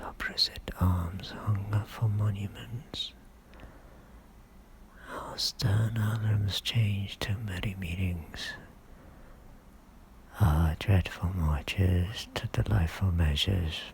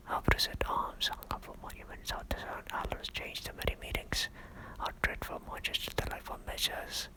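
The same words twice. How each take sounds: First: Voiced, unhurried stage declamation; measured soliloquy. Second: Rapid, hushed recitation; whispered soliloquy. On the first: Richard alone, recalling war turned to peace, measured and voiced. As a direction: recite it deliberately, pausing between phrases. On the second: Acted. Richard alone, recalling war turned to peace, rapidly whispered. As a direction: race through it under your breath. Repeat take, whispered fast.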